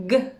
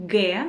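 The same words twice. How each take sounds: First: G as a very short "guh"; letter sound. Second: G said as Russian "geh", hard g; letter name. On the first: Teacher showing the consonant alone, short letter sound guh. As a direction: say only the brief hard sound of G. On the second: Teacher naming the next Russian letter, letter name geh. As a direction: say G as a full syllable, geh. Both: Shown as a demonstration.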